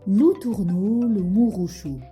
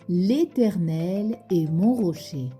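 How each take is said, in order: First: Every vowel is replaced by an ou sound. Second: The sentence keeps its normal mixed vowels. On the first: "Avec le son OU" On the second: "Tu répètes après moi?"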